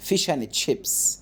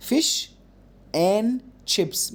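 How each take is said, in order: First: "Fish and chips" slowly, with "and" cut to "an", no d; d dropped in and. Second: "Fish and chips" with "and" said in full, the d kept; wrong take, full "and". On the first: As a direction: drop the d of "and", blending into "chips". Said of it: "اعمل الدروب لحرف الدي". (نطق "and" من غير دال) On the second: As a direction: say the whole word "and" between "Fish" and "chips". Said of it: "ما تقولش and". ("and" كاملة بالدال) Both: Shown as a demonstration.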